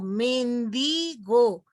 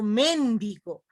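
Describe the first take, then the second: First: The stress is on the middle syllable. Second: The stress is not on the middle syllable. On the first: The speaker calls it right. "la sílaba tónica está en penúltimo lugar" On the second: The speaker calls it wrong. "no digo mendigo"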